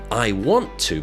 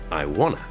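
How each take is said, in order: First: Every word is said fully and separately. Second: The words are blended together into wanna.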